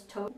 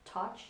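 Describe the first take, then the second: First: "Tosh" with a long o, like "toe-sh"; long-o pronunciation. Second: "Tosh" as "totch", open ah vowel; short-o pronunciation. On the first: Vlogger guessing at an Instagrammer's name, "Tosh" said with long o. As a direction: say "Tosh" to rhyme with gauche. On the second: Vlogger offering another guess at the name, "Tosh" said like "totch". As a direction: say "Tosh" with an ah and a ch ending. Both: Shown as a demonstration. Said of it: "if I mispronounce it".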